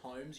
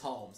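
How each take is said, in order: First: The name is said without an L sound. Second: The name is said with an L sound. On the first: The speaker calls it wrong. "if anyone pronounces it Holmes, you're a fucking moron" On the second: The speaker calls it right. "Because it says an L in the fucking name"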